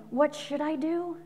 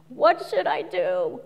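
First: Slow, worried what should I do; lost, slow plea; anxious asking. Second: Slow, inward what should I do; self-absorbed worrying; navel-gazing. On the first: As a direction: ask it slowly, fretting. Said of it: "it's not just the words, you gotta watch the intention". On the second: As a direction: ask it slowly while staring at your navel. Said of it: "Looking at the navel". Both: Shown as a demonstration.

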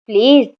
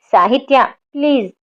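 First: Said in the usual way. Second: Urgent plea called after her; anxiously calling out please. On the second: A narrator's reading. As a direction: call her back before she hangs up. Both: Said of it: "అతను ఆతృతగా పిలుస్తూ".

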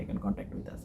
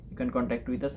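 First: Whispered repeat. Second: Said in the usual way. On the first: Shown as a demonstration. Tutor urging viewers to get in touch, whispered. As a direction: drop to a near whisper on the repeat. Repeated call to contact channel.

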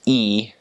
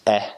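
First: E said "ee"; long E. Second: Eh as a short open vowel. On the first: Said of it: "that's how you pronounce it". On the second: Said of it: "you pronounce it eh". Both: Shown as a demonstration.

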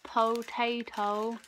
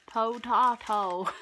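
First: "Potato" said poh-TAY-toh, slow and drawn out; "Potato" with a long AY vowel, like American English; potayto. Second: "potato" said poh-TAH-toh, slow and louder; "potato" with a broad AH vowel, like British English; potahto. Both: Shown as a demonstration. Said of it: "it says".

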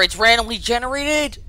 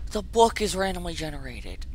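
First: Higher-pitched, incredulous realization. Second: Softer, resigned repeat; subdued disbelief. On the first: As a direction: pitch lifting in disbelief. Surprised at randomly placed book. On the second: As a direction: let it drop away quietly. Repeats it, letting it sink in. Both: Real, not acted.

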